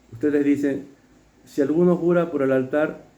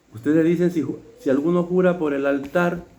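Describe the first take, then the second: No difference in how they are said.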